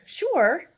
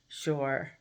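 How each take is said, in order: First: It sounds willing and eager. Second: It sounds reluctant and grudging.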